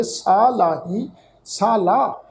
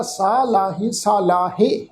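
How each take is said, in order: First: ਲਾਹੀ read as ਸਾ ਲਾ, ਹ and sihari silent, slow; correct pronunciation. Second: ਲਾਹੇ said with a full ਹ and a sounded sihari; the mistaken way, sounding out ਹ in ਲਾਹੀ; common wrong reading. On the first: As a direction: say ਸਾ ਲਾ with the ਹ left silent. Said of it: "ਇਹਦਾ ਪਾਠ ਅਸੀਂ ਉਚਾਰਨ ਕਰਾਂਗੇ". (ਸਹੀ ਉਚਾਰਨ, ਸਾ ਲਾ, ਹਾਹਾ ਚੁੱਪ) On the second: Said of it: "ਕਈ ਸੱਜਣ ਇਹਦਾ ਇੰਜ ਪਾਠ ਕਰਦੇ ਆ". (ਗਲਤ ਉਚਾਰਨ, ਹਾਹਾ ਬੋਲ ਕੇ ਲਾਹੇ) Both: Shown as a demonstration.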